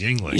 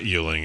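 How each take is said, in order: First: The first syllable sounds like 'ying'. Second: The first syllable sounds like 'yuen'. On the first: The speaker calls it right. "it's Yuengling" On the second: The speaker calls it wrong. "It's not Yuengling"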